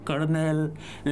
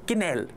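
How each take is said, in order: First: The first vowel sounds like 'er'. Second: The first vowel sounds like 'i'. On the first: The speaker calls it wrong. "वो कर्नेल नहीं है" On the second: The speaker calls it right. "इसका जो correct pronunciation है"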